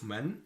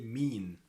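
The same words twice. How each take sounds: First: من as short "man"; Standard Arabic pronunciation. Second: مين as long "meen"; Egyptian pronunciation. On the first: Teacher repeats the formal word, Standard Arabic pronunciation. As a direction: keep a short "a" in من. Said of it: "Instead of". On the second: Teacher repeats the dialect word, Egyptian pronunciation. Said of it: "we say". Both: Shown as a demonstration.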